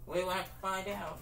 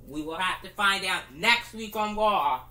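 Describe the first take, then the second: First: Much softer, far-off repeat; distant echo. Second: Said in the usual way. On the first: Pretend. Announcer's tagline echoing away, much softer. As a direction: let it fade like an echo.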